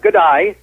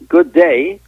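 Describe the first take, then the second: First: The vowel of day sounds like die. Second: The vowel of day sounds like day. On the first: "qui sort uh" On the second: "leur façon de dire good day"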